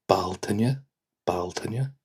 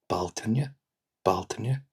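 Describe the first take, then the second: Both takes have the same delivery.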